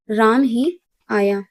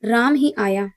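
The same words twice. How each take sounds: First: Slow, weight on ही in राम ही आया; stress on ही. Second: Said in the usual way. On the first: Shown as a demonstration. Teacher demonstrating emphasis on राम, slow and stressed. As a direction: drag it out, leaning on ही. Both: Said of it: "यहाँ पर राम पर जोर दिया जा रहा है".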